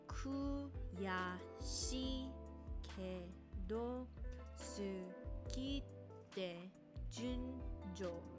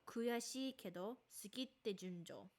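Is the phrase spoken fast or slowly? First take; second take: slowly; fast. First: The phrase is spoken very slowly. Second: The phrase is spoken faster. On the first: "it's going to be very slowly"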